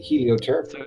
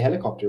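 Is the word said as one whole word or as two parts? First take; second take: two parts; one word. First: It is said split into two separate parts. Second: It is said as one ordinary whole word. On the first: The speaker calls it right. "We're supposed to say helio ter" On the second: The speaker calls it wrong. "we're actually pronouncing it wrong. We're not supposed to say helicopter"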